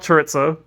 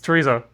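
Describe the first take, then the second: First: It is said with a British-style pronunciation. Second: It is said with a Spanish-style pronunciation. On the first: The speaker calls it wrong. "It's not chorizo. ... It's a very British pronunciation, but it's wrong" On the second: The speaker calls it right. "it's chorizo"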